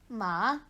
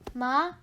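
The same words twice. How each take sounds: First: The pitch dips down, then rises. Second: The pitch rises throughout. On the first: "one goes down and back up" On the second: "one goes up"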